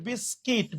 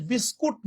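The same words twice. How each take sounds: First: "বিস্কিট" with an i vowel, ending -kit; correct pronunciation. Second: "বিস্কুট" with a u vowel, ending -kut; mistaken local pronunciation. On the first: Teacher answering own question, "বিস্কিট" correctly ending in -kit. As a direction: say "বিস্কিট" as bis-kit, falling at the end. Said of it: "উচ্চারণটা মূলত কি হবে?". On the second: Teacher showing the common mistake, "বিস্কুট" said with -kut. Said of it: "বিস্কুট না". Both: Shown as a demonstration.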